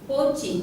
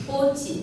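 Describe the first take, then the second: The two takes are said the same way.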